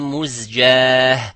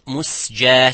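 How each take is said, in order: First: The middle consonant is a z sound. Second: The middle consonant is an s sound. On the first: The speaker calls it right. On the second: The speaker calls it wrong.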